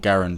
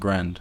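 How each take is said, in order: First: The name is said as two syllables. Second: The name is said as one syllable. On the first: This is how the inventor's name actually goes. "I know that his name was actually Garand" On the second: This is the speaker's habitual way of saying it. "I've always pronounced it Grand"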